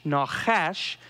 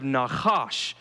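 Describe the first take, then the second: First: "nachash" as nah-KHASH, last vowel as in "cash"; "nachash" carefully, rhyming with "ash"; careful Hebrew pronunciation. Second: "nachash" as nah-KHAHSH, open AH in both syllables; throaty KH and long "ahsh" in "nachash"; "nachash" with the last vowel as in "father"; alternative Hebrew pronunciation. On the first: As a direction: sound out "nachash" ending in a short-A "ash". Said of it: "try to get this right". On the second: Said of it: "instead of nachash". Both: Shown as a demonstration.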